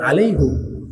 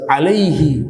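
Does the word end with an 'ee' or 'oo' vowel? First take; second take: oo; ee. First: The word ends with an 'oo' vowel. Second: The word ends with an 'ee' vowel. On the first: The speaker calls it wrong. "bukan alaihu" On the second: The speaker calls it right. "kata yang benar itu bukan alaihu tapi alaihi"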